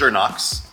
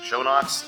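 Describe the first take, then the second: First: The first syllable sounds like 'sher'. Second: The first syllable sounds like 'show'. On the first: This is how the company itself says it. The speaker calls it right. "That's the correct pronunciation" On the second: This is how most of the industry says it. The speaker calls it wrong. "The industry knows it as Shownox"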